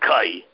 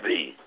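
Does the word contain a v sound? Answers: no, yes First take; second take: no; yes. First: The word is said without a v sound. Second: The word is said with a v sound. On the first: This is the pronunciation most people accept today. "People pronounce it as kai" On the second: This is the older pronunciation from childhood schooling. "When I grew up, we pronounced it as kvi"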